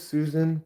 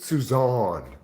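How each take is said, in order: First: The name is said as Susan. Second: The name is said as Suzanne. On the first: This is how the name looks written. The speaker calls it wrong. "I know it looks like my name is Susan" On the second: This is how the owner says the name. The speaker calls it right. "but I pronounce it Suzanne"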